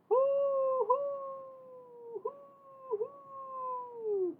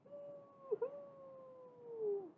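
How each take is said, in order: First: High, drawn-out owl hoo; owl hooting. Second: High, very soft drawn-out hoo; soft owl hoo. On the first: A narrator's reading. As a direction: hoot like an owl in the night. Owl sound in story. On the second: Shown as a demonstration. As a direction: breathe out a soft owl call. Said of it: "Can you make that sound?".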